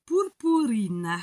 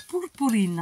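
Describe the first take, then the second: First: "purpurine" drawn out in a would-be Portuguese accent; very slow Portuguese word that sounds rather Italian; accent portugais italianisant. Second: « Purpurine » dit à la portugaise; prononciation portugaise. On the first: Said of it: "avec mon superbe accent qui fait plus italien qu'autre chose". (« purpurine » très étiré, accent portugais qui sonne italien) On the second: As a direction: say "Purpurine" as a Portuguese word, at normal speed. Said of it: "en portugais". (« Purpurine » prononcé en portugais, sans traîner) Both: Shown as a demonstration.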